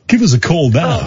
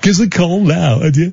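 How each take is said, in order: First: The words 'give us' are said in full. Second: The words 'give us' are squeezed into 'giz'. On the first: The speaker calls it wrong. "they don't say give us a call" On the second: The speaker calls it right. "they say giz a call"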